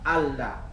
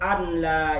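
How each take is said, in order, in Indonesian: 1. Bunyi n menyatu menjadi bunyi l yang dobel. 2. Bunyi n jelas diucapkan sebelum l. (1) "An la dibaca Allah" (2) "kada diidghamkan bila gunnah, dibaca kayak ini"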